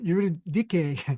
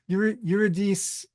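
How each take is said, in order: First: The name is pronounced the Greek way. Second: The name is pronounced the English way. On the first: "Eurydice in, in Greek" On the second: "we usually see Eurydice or Eurydice, whatever in, in English"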